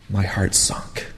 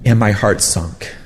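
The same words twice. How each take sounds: First: Soft breathy whisper, heavy with grief. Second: Said in the usual way. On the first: A narrator's reading. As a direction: let it drop to a whisper. Repeated line, second whispered.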